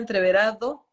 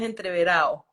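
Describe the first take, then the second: First: It is said in the standard dictionary pronunciation. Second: It is said in the colloquial regional pronunciation. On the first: "La pronunciación del diccionario es entreverado" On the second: "pronunciación de la calle, del llano, es entreverado"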